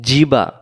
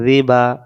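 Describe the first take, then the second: First: It starts with a hard j-like sound. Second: It starts with a soft tongue-tip sound. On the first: The speaker calls it wrong. "জিব্বার মাঝখান থেকে হয়ে গেল, জিম অক্ষরে রূপান্তরিত হলো" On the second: The speaker calls it right. "জিব্বার আগা থেকে"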